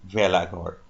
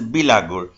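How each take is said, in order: First: It begins with 've' and ends with 'gor'. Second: It begins with 'bi' and ends with 'gur'. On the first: This is how other Assamese people say it. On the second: This is how the Kosari people say it.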